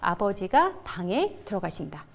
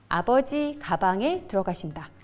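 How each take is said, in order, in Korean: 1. 쉼은 'abeojiga' 뒤, 'bange' 앞에 옵니다. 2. 쉼은 'abeoji' 뒤, 'gabange' 앞에 옵니다. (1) "책에는 당연히 띄어읽기가 되어 있겠죠. 이렇게요" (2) "이 문장을 아버지 가방에 들어가신다 라고 읽으면 안 되겠죠"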